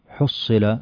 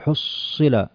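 First: The word is said smoothly, without strain. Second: The word is said with exaggerated, strained articulation. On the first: The speaker calls it right. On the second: The speaker calls it wrong.

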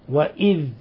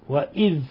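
Both takes have the same delivery.

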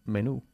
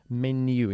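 First: It is pronounced the Spanish way. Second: It is pronounced the English way. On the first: The speaker calls it wrong. "y no menú" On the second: The speaker calls it right. "Menu y no menú"

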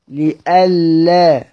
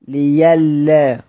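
First: A glottal stop follows the i vowel. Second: A y sound replaces the glottal stop. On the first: This is the reading that keeps the hamza. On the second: This is how it is read when pausing in Hamza's reading.

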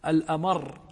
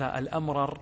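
First: The two r sounds merge into one long r. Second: The two r sounds are said separately. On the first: The speaker calls it right. "هذا فصيح" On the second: The speaker calls it wrong. "لكن لو قلت الأمرر هذا غير فصيح"

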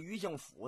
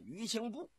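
First: The last syllable is pronounced fu. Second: The last syllable is pronounced bu. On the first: This is how local people say it. "天津有个叫余姓府的" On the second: This follows the written character. "应该念呢余姓埠"

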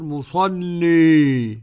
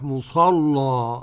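First: The final vowel is fully tilted toward i. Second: The final vowel is an open a. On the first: "حمزة والكسائي وخلف العاشر" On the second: "إنما الفتح"

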